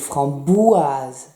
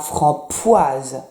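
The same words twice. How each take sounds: First: The middle consonant sounds like a voiced B. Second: The middle consonant sounds like a voiceless P. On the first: The speaker calls it right. "c'est framboise, b" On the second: The speaker calls it wrong. "C'est pas framboise"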